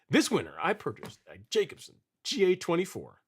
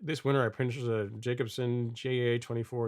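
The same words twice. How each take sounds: First: It is read in an excited, hyped-up way. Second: It is read in a plain, flat way. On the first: The speaker calls it right. "you got to read it like" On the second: The speaker calls it wrong. "You can't just say"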